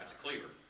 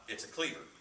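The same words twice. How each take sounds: First: The voice sounds alarmed and frightened. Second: The voice sounds calm and unbothered. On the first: The blade is a threat to the viewer. The speaker calls it right. "oh crap" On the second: The blade is a tool the viewer could grab. The speaker calls it wrong.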